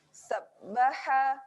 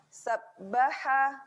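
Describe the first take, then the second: Both takes have the same delivery.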